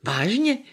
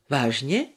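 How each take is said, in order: First: Higher, sharply rising repeat question; surprised question. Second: Low, restrained question with a rising end. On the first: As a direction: ask it in surprise, pitch climbing high. Startled detective repeats the question. (překvapená otázka, hlas stoupá výš) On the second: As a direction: ask it low, lifting only at the end. Startled detective asks, then repeats. (nízká, zdrženlivá otázka) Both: A narrator's reading.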